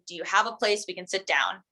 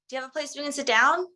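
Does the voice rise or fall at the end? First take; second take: fall; rise. First: The voice gets lower at the end. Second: The voice goes up at the end.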